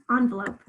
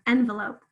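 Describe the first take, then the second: First: Envelope said "ON-vuh-lope"; ON variant. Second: Envelope said "EN-vuh-lope"; EN variant. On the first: Teacher asks if pupils say it this way, ON variant. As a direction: open envelope with on. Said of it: "or do you say envelope?". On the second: Teacher offers one way to say this word, EN variant. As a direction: open envelope with en as in pen. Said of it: "depends how you say this word". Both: Shown as a demonstration.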